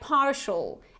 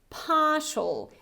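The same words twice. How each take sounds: First: It has an American accent with an R sound. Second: It has a British accent with no R sound. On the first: "imitating this American pronunciation" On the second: "this is the British variety, so I don't pronounce this R sound"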